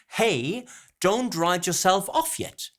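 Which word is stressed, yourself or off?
off. Stress falls on off, as in normal conversation. The speaker calls it right. "we would have the stress, the pronunciation on the off"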